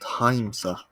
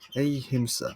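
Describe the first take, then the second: First: The syllable 'him' is said like 'high'. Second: The syllable 'him' is said with a short i. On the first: The speaker calls it wrong. "Not not Haimsa" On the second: The speaker calls it right. "Him, him"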